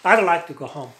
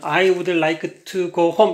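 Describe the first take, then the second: First: The word 'would' is contracted to 'd. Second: The word 'would' is said in full. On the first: The speaker calls it right. "이렇게 얘기를 해" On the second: The speaker calls it wrong. "이렇게 발음하면 꽉 못 알아먹어"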